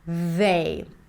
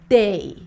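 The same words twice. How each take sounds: First: The word begins with a soft 'th' sound. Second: The word begins with a hard 'd' sound. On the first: The speaker calls it right. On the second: The speaker calls it wrong.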